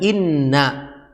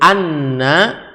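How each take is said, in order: First: The word begins with an 'i' vowel. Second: The word begins with an 'a' vowel. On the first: "dengan berharokat kasrah" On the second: "pakai hamzah di atas uh, alif"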